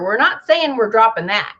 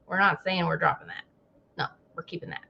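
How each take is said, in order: First: Said in the usual way. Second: Much softer, quick muttered repeat; muttered aside. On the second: Retold or imitated. Mimicking the CDC muttering a hedge. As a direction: mutter it under your breath. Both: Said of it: "It's like".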